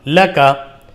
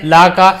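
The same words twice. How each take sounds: First: लका with pure, correct maroof vowels; maroof reading. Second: ला का with the vowels wrongly coloured, majhool style; majhool reading. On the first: Teacher modelling the correct reading for pupils, maroof vowels. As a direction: read लका carefully in maroof style. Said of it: "बल्कि मारूफ पढ़ना है". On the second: Teacher showing pupils how not to read it, majhool vowels. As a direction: say ला का as the faulty majhool example. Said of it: "मजहूल नहीं पढ़ना है, ला का ऐसे नहीं". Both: Shown as a demonstration.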